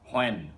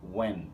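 First: The word begins with a clear h sound. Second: The word begins with a w sound. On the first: The speaker calls it wrong. "আমরা অনেকেই বলে ফেলি হোয়েন, which is wrong" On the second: The speaker calls it right. "ও এর মতো ওয়েন"

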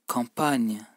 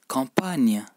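No difference in how they are said.

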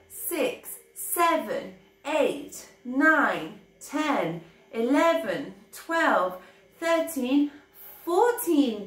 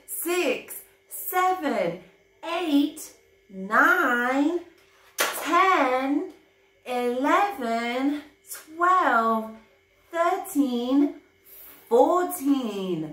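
First: The numbers are counted at a quick pace. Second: The numbers are counted at a slow pace.

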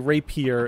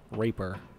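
First: The word is said with three full syllables. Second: The word is said with only two syllables. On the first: The speaker calls it right. "I want to say rapier" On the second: The speaker calls it wrong. "and not, like, raper"

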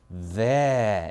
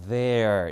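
First: The final r is dropped, British style. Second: The final r is pronounced, American style. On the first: "영국은 there 이겁니다" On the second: "미국 영어에서는 there 이거고요"

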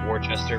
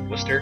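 First: Every written syllable of the word is sounded. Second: The word is shortened to two syllables. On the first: This is how the spelling looks. The speaker calls it wrong. "a town that's read Worcester" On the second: This is how the name is actually said. The speaker calls it right. "but it's pronounced Worcester"

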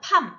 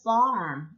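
First: The word starts with a P sound. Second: The word starts with an F sound. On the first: The speaker calls it wrong. "이거를 P 발음 팜 이것도 아니고요" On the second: The speaker calls it right. "F 발음 하시고"

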